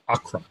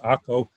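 First: The name is said in the English way. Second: The name is said in the Hebrew way. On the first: "would look in English like Acre" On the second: "but we pronounce it Akko"

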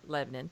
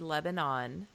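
First: It uses the local Tennessee pronunciation of the name. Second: It uses the usual pronunciation of the country's name. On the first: It names the town in Tennessee. "here we pronounce it Lebanon" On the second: It names the country in the Middle East. "spelt the same as the country Lebanon"

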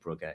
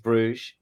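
First: The name is said in the Flemish way. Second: The name is said in the French way. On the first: It names the football team. "The team is Club Brugger. It's Flemish rather than French" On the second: It names the town or city. "The town or the city is Bruges"

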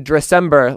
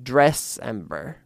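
First: The stress is on the second syllable. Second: The stress is on the first syllable. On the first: "I like to say Dressember, like December" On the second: "putting a little bit more emphasis on the dress"

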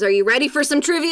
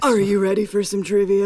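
First: The voice is smooth with little rasp. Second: The voice is rough with added rasp.

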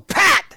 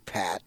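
First: The name is said loudly with strong emphasis. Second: The name is said calmly at normal volume. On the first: Correcting a misheard name and setting boundaries. "Especially with the emphasis" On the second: A simple introduction. "I just say, Pat"

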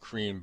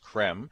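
First: The name is said with a long ee vowel. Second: The name is said with a short e vowel. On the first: The speaker calls it wrong. "I've been saying cream" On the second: The speaker calls it right. "but it's Krem"

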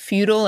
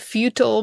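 First: The word sounds like 'feudal'. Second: The word does not sound like 'feudal'. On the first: The speaker calls it right. "but futile as in feudal times" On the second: The speaker calls it wrong. "not futile"

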